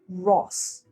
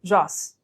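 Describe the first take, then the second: First: The R is said with rounded lips. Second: The R is said with unrounded lips. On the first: The speaker calls it right. "make sure to run to your mouth a little bit" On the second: The speaker calls it wrong.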